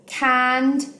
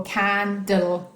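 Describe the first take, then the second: First: "candle" broken as cand, then le; higher, separated syllables in "candle", cand-le; split after the D. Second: "candle" broken as can, then dle; slow "candle" divided between N and D; split before the D. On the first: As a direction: say "candle" in two beats, cand-le, with a gap. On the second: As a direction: say "candle" slowly in two beats, can-dle. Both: Shown as a demonstration. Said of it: "You can split it in different places".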